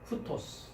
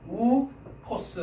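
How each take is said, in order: First: The word starts with an h sound. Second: The word starts directly with the vowel. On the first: The speaker calls it right. "우토스라고 하지 않고 히읗 발음이 들어갑니다" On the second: The speaker calls it wrong. "우토스라고 발음을 해야 될 텐데"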